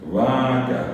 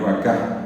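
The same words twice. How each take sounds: First: The stress is on the second-to-last syllable. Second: The stress is on the last syllable.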